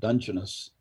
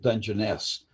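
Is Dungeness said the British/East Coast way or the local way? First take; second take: British/East Coast; local. First: It uses the British and East Coast pronunciation. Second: It uses the local West Coast pronunciation. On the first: "the British English and East Coasters pronounce it Dungeness" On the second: "we pronounce it Dungeness"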